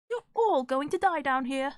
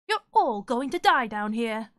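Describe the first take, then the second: First: It is said in a British Red Queen voice. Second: It is said in a bad guy voice.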